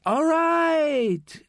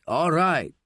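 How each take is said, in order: First: All right pitched far higher, drawn out and falling; a high anxious "right" held long then dropped; jumpy high-voiced "All right"; nervous all right. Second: Said in the usual way. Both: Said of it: "Manolo says to the nun".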